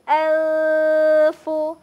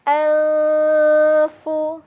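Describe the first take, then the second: The two takes are said the same way.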